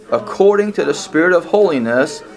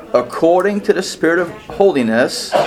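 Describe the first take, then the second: No difference in how they are said.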